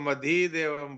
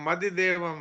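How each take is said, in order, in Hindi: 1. छोटे स्वर को रोककर लंबा खींचा जाता है। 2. छोटे स्वर बिना खींचे छोटे ही रखे जाते हैं। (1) "इसको मधिदेवम बोला। तो ये दोनों बड़ी मात्रा हो गई" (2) "मधिदेवम है"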